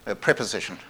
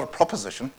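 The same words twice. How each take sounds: First: "preposition" with its first syllable picked out, falling after; corrective stress. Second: "proposition" with its first syllable pitched up; stress on first syllable. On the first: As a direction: lean on the PRE in "preposition", then drop. Corrects to the intended word. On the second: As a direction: punch the PRO in "proposition". Contrasting two similar words. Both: Shown as a demonstration.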